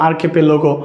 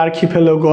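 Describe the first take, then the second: First: "আর্কিপেলাগো" said as ar-ke-pe-lo-go; plain unaspirated k and p in "আর্কিপেলাগো"; "আর্কিপেলাগো" demonstrated with "ke-pe" in the middle; alternative pronunciation. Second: "আর্কিপেলাগো" said as ar-khi-phe-lo-go; "আর্কিপেলাগো" demonstrated with kh and ph sounds; variant pronunciation. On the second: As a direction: aspirate the k and p in "আর্কিপেলাগো", with "lo" before "go". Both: Shown as a demonstration. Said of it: "অনেকে উচ্চারণ দেয়".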